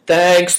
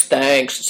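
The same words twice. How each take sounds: First: Condescending. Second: A lazy, stretched second thanks; tossing it off from above; condescending, drawn out. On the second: Employer drawling thanks to the bowing apprentice. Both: A narrator's reading. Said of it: "said Greencoat condescendingly".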